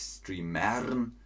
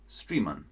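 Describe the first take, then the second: First: The R in the ending is clearly pronounced. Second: The R in the ending is silent. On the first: The speaker calls it wrong. "Nicht Streamern" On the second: The speaker calls it right. "Das R ist stumm"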